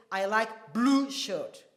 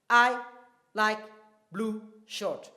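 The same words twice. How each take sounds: First: Slow, blue emphasised; stress on blue. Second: I, like, blue shirt each with a pause; spaced-out words. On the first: Teacher repeating the example with stress, slow. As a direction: lean on blue. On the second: Teacher breaking the sentence into words, paused. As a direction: say it word by word, blue stressed. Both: Shown as a demonstration. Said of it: "So when I say".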